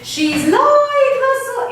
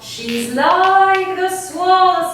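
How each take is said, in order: First: It is spoken at a much higher pitch. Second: It is spoken at a lower pitch.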